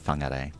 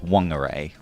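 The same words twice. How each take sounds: First: The name begins with an F sound. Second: The name begins with a W sound. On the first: This is the Maori pronunciation. The speaker calls it right. "the Maori pronunciation is the proper pronunciation, so it's Whangarei" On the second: This is the older, non-Maori pronunciation. The speaker calls it wrong. "people pronounced it as Whangarei with a with a W"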